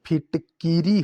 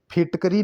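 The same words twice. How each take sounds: First: फिटकीरी as "phit-kee-ree"; long ee after k in फिटकीरी; correct pronunciation. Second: फिटकरी as "phit-ka-ree"; short a after k in फिटकरी; wrong pronunciation. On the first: Teacher correcting the word, फिटकीरी with kee. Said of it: "होता है". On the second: Teacher showing the common form, फिटकरी with ka. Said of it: "नहीं होता". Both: Shown as a demonstration.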